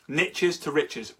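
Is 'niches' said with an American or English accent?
American. Niches rhymes with riches, American style.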